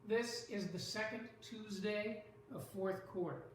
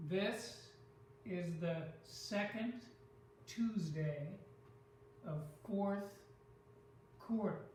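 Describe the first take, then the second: First: Said in the usual way. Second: "This, is the second, Tuesday, of fourth, quarter" in separate beats; showing the stress pattern. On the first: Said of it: "I could look at this sentence". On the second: Shown as a demonstration. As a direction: pause between groups, weighting THIS, SEC, TUES, FOURTH, QUAR. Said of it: "There's almost a pattern there".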